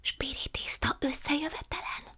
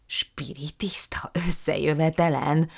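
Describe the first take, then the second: First: Secretive hushed whisper. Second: Slow, stunned disbelieving repeat; mama aghast at the séance news. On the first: Prue whispering to her aunt about the séance. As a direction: breathe it so no one overhears. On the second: Mama repeating it in stunned disbelief. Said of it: "hüledezett mama". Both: A narrator's reading.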